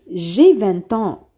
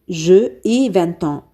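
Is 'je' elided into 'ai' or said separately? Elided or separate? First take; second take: elided; separate. First: The vowel of je is dropped before ai. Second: Je and ai are said as separate syllables. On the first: The speaker calls it right. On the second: The speaker calls it wrong.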